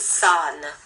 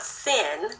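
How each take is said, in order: First: The vowel is an open 'ah' sound. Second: The vowel is a short 'i' sound. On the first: The speaker calls it right. "actually it's san. S A H N. The ah is there" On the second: The speaker calls it wrong. "It's not sin. That's a lie"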